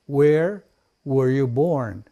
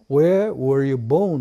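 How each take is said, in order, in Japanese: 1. 最後の単語は「born」と言っています。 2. 最後の単語は「bone」と言っています。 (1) "born 生まれたという意味ですね。" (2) "bone は骨なんですね。"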